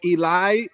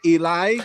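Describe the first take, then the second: First: It is pronounced like 'ee-lie'. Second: The same.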